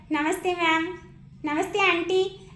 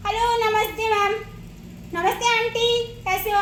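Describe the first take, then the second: First: Polite greeting. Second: Put-on lively, chatty child's hello; cheery greeting. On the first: Retold or imitated. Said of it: "शालीनता से बोलता है". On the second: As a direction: bounce in brightly with a hello. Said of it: "कई बोलते हैं".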